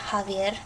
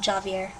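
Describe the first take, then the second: First: The name begins with a breathy H sound. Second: The name begins with an English J sound. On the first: The speaker calls it right. "the J is the H sound of English" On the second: The speaker calls it wrong.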